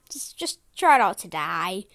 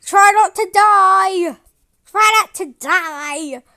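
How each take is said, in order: First: Said in the usual way. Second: Loud warning shout. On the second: Pretend. Warning cartoon character.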